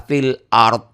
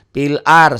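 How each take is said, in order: First: "fil ard" with a clear final d; correct pronunciation. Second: "Fil ar" said loudly without the final d; the error, "ar" missing its d; wrong pronunciation. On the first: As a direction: fix it and sound the d of "ard". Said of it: "salah, fil ard". ("ard" dengan d jelas) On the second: ("ar" tanpa d, contoh salah) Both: Shown as a demonstration.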